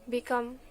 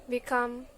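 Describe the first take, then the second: Both takes have the same delivery.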